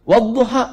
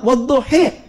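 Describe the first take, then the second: First: The word ends with an open 'a' vowel. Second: The word ends with an 'e' vowel, dialect-style.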